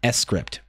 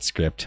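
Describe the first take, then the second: First: It is said as two parts, ess-crypt. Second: It is said as one syllable, script. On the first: "I think it's meant to be pronounced S-Crypt" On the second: "you can call it script"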